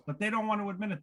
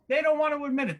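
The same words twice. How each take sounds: First: Said in the usual way. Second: Higher and louder, punching don't; emphatic repeat. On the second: Acted. Comic to crowd, louder emphatic repeat. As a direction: hammer the repeat home.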